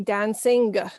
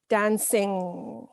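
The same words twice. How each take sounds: First: A separate G sound is heard at the end. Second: The word stops on the ng sound. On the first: The speaker calls it wrong. "we would not say dancing" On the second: The speaker calls it right. "Just stop when you have the ng"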